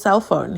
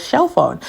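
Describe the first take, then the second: First: Said in the usual way. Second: "shell phone" with a sh sound for the s; cell as "shell". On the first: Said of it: "he never says cell phone". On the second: Retold or imitated. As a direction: imitate his "shell phone", sh replacing s. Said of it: "He says shell phone".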